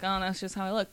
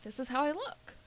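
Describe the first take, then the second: First: Resigned acceptance in usual pitch. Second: Higher, rising affirmation; self-accepting, not resigned. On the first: Showing friends the wrong way to accept your looks, resigned. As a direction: say it as if giving in. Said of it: "like, a resigned way". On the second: Showing friends full acceptance of your looks, affirming. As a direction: state it with acceptance, lifting the pitch. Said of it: "not in a, like, a resigned way". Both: Shown as a demonstration.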